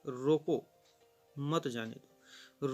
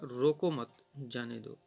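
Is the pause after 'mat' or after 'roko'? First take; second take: after roko; after mat. First: There is a pause right after 'roko'. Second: There is a pause right after 'mat'. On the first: The messenger should be stopped. "रोको के ठीक बाद हम इस यहाँ अल्प विराम का प्रयोग करते हैं।" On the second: The messenger should be let go. "यदि वह पत्रवाहक को रोकना न चाहे तो वह पढ़ेगा"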